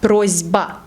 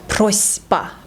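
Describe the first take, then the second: First: The middle consonant is voiced. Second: The middle consonant is voiceless. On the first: The speaker calls it right. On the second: The speaker calls it wrong.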